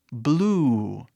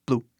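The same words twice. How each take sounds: First: BLUE with a long, drawn-out U; stretched vowel. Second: BLUE cut short, with a brief U; short vowel. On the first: Teacher models the sound for learners, BLUE stretched long. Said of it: "esticando quase o som". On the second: Teacher shows what to avoid, BLUE with short U. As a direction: say BLUE quickly, without stretching the vowel. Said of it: "a pronúncia não é blue". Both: Shown as a demonstration.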